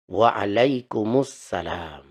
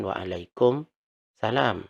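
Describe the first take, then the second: First: Waalaikumsalam slowly, joined through to -mussalam; correct reading. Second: Waalaikumsalam read without the joining; wrong reading. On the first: Teacher showing students the correct reading, slow. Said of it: "yang benar bacanya". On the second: Teacher showing students the wrong reading, said plainly. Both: Shown as a demonstration.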